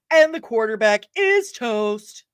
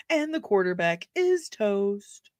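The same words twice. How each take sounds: First: Slow, projected delivery, drawn-out IS; announced with gusto. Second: Slow, moderate volume, stretched IS; slow quote delivery. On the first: Streamer showing off a good quote, slow and projected. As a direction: call it out slowly, stretching IS. Performing a film quote, first take. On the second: Streamer repeating a favorite line, slow and restrained. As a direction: draw out IS without projecting. Same film quote, softer take. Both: Acted.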